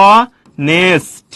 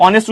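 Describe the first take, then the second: First: অনেস্ট drawn out very slowly, sound by sound, with no h at the start; pronunciation demo. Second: Said in the usual way. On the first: Shown as a demonstration. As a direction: stretch অনেস্ট into two long parts, opening on a clear vowel. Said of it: "অনেস্ট উচ্চারণ করলে কি আসছে". (অনেস্ট খুব টেনে, ভেঙে ভেঙে উচ্চারণ, শুরুতে হ ছাড়া) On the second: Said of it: "অনেস্ট উচ্চারণ করলে".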